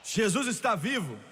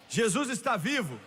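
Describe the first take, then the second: No difference in how they are said.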